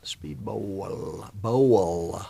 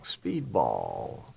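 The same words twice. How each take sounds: First: Second word of the name said as "bowl", long "oh"; exaggerated BOWL ending. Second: Speedball with an open "aw" in BALL; BALL ending. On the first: Streamer replaying the corrected name, overpronounced "bowl". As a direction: stretch the BOWL sound, then punch "Bowl". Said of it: "It was Speedbowl". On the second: Streamer replaying the mistaken name, drawn-out "Speedball". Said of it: "no, it wasn't Speedball". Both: Shown as a demonstration.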